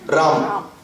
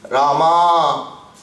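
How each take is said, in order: First: The name ends abruptly on the final consonant. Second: The name ends with an extra drawn-out vowel. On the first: "if you go to the north, the last bit of the pronunciation is swallowed" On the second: "Way south, most Pullinga-vachaka Shabdam will end up having one extra uh, making it a"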